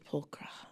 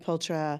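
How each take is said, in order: First: The name is said the European way. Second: The name is said the American way. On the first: "In Europe, it's Pulcra" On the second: "in the U S, they say Pultra"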